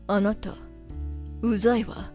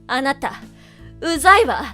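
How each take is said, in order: First: It is said flatly, with little emotion. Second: It is said with strong, powerful emotion.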